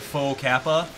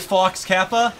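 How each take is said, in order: First: The first word ends in a vowel, no 'ks'. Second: The first word ends with a 'ks' sound. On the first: "I would call him faux Kappa" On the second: "it's pronounced Fox Kappa"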